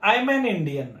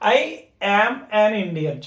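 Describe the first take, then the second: First: I am is shortened into one syllable. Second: I am is said as two full words. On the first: This is how it is said in speech. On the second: This is how it is read aloud.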